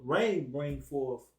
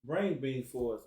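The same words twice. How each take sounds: First: Slow and deliberate, each word stretched; slow, drawn-out reading. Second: Said in the usual way. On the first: Shown as a demonstration. Teacher savouring the verse for his listeners, slowly drawn out. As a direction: let the words of rain bring forth linger. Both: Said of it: "repeats rain bring forth".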